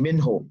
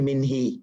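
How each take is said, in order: First: The word ends with a 'u' vowel. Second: The word ends with an 'i' vowel. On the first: The speaker calls it right. "It will be minhu" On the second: The speaker calls it wrong. "Here we can't say minhi"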